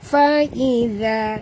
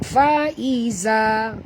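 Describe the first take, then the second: First: The middle consonant is a voiced th sound. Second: The middle consonant sounds like a plain z. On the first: The speaker calls it right. "lidah kita keluar sikit di hujung" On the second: The speaker calls it wrong. "kan bunyi zai"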